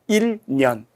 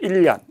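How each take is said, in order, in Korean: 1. n이 그대로 유지되어서 il nyeon처럼 들립니다. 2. n이 l로 바뀌어서 illyeon처럼 들립니다. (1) "그냥 그대로 읽었습니다" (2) "자연스럽게 발음하면 일 년 이렇게 발음해야 되겠죠"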